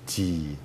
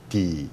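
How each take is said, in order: First: The D rings on with a resonant, flowing sound. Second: The D is short and stops abruptly. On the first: "드럼하고 소리가 나는 것은 D라는 소리가 가진 화음입니다. 소리, 그 흐르는 소리인데" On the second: "한국말은 D, ... 그냥 D 이러고 끝나죠"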